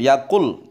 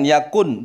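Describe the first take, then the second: First: The final nasal merges into an l sound. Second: The word ends with a clear n sound. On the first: The speaker calls it right. "idgham bila gunnah, maka masuk kepada lam" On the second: The speaker calls it wrong. "jangan yakun"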